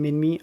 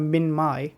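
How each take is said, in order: First: The name ends with an 'ee' sound. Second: The name ends with an 'eye' sound. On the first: The speaker calls it right. "I'm gonna call them Minmi" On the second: The speaker calls it wrong. "I'm not a fan of Minmai"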